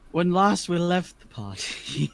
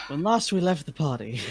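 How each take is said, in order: First: Narrator voice. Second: Story narration. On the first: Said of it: "we're serious stream". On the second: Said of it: "we're serious professional stream". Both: A narrator's reading.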